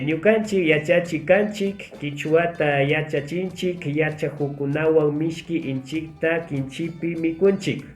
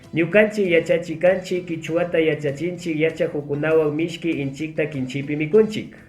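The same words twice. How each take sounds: First: It is read at a medium pace. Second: It is read at a fast pace.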